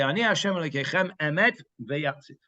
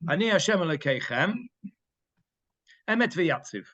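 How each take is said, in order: First: There is no pause before 'Emet'. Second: There is a pause before 'Emet'. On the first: The speaker calls it right. "And you say it all together" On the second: The speaker calls it wrong. "So it would be wrong to say"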